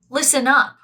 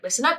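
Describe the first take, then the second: First: It is said in a rude, harsh tone. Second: It is said in a nice, friendly tone. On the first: The speaker is being impolite to the listeners. "that can be very rude" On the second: The speaker is being kind to the listeners. "in a very nice way"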